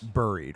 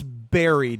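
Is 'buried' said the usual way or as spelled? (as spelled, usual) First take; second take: as spelled; usual. First: The word is said the way it is spelled. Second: The word is said with its usual pronunciation. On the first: The speaker calls it wrong. "and not buried" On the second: The speaker calls it right. "you know it's buried"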